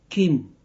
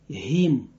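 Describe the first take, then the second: First: The syllable starts with a hard k sound. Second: The syllable starts with a soft h sound. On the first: "but Kim" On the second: "and not the last the last sounds like him"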